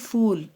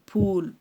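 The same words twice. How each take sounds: First: It starts with an f sound. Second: It starts with a breathy p sound. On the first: The speaker calls it wrong. "ना कि फूल, एफ O वो वो L नहीं है" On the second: The speaker calls it right. "पी जैसा"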